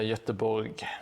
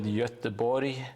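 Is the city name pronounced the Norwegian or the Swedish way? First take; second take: Norwegian; Swedish. First: It is pronounced the way Norwegians say it. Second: It is pronounced the way Swedes say it. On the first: "in Norway it's uh, Göteborg" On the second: "the Swedes call it Göteborg"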